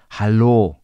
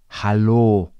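The two takes are said the same way.

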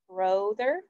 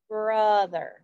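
First: The first vowel sounds like oh. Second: The first vowel sounds like uh. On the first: The speaker calls it wrong. "Does it say O?" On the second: The speaker calls it right. "It says like brother, like from"

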